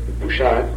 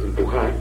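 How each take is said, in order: First: The middle consonant is a 'sh' sound. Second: The middle consonant is a harsh throaty 'j'. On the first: This is the old Judeo-Spanish form. "las pronunciábamos She" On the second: This is the modern standard Spanish form. "que es empujar"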